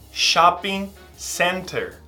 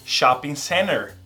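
First: The T in center is clearly pronounced. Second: The T in center is dropped.

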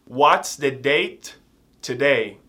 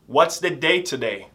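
First: The question is spoken slowly and carefully. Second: The question is spoken quickly and run together.

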